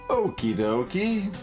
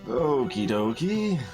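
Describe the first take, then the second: First: It is said in a lively, excited way. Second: It is said in a flat, monotone way. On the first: "that was still too excited" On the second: "a little bit more uh, deadpan, monotone response"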